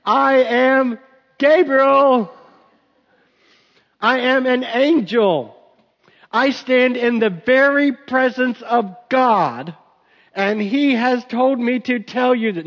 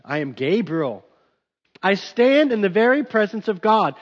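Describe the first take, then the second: First: Higher, louder, slow and insistent angel; emphatic Gabriel. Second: Said in the usual way. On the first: Pretend. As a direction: spell it out grandly to a doubter. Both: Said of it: "he probably didn't use that inflection".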